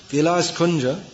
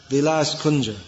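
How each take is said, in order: Both takes have the same delivery.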